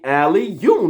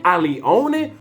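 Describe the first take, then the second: First: The name is said as two clear parts. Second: The name is slurred with extra sounds added. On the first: This is how the name really goes. The speaker calls it right. "It's only Ali, you" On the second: Other people mispronounce it. The speaker calls it wrong. "I'm still hearing"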